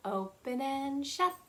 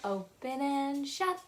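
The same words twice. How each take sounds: The two takes are said the same way.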